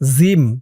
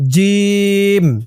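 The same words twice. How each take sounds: First: The first consonant is soft, like a z sound. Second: The first consonant is hard, from the throat. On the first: The speaker calls it wrong. "আপনারা অনেকেই কিন্তু বলেন জিম জিম বললে কিন্তু জিমের উচ্চারণটা শুদ্ধ হয় না" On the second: The speaker calls it right. "বলতে হবে জিম"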